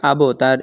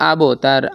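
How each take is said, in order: Both takes have the same delivery.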